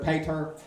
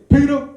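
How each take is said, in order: First: It is said in a redneck accent. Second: It is said in a Black American accent.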